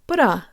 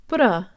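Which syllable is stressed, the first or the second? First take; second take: second; second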